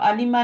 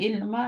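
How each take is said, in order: First: It is said as three syllables starting with 'a'. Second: It is said as two syllables starting with 'i'. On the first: The speaker calls it wrong. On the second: The speaker calls it right.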